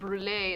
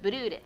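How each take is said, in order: First: The word is said without a Japanese-style adaptation. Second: The word is said with a Japanese-style adaptation.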